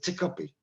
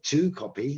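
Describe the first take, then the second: First: The word to has a reduced, weak vowel. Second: The word to has a full, strong vowel. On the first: "I said to copy" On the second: "I didn't say to copy"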